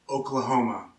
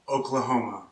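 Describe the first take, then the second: No difference in how they are said.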